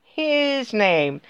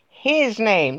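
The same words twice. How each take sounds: First: HIS name, his punched firmly; stress on his. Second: His name, with HIS hit hard; stress on his. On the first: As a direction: push the word his hard. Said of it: "not his dad's name". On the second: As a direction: lean on the word his. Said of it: "not, not, not his dad's name". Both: Shown as a demonstration.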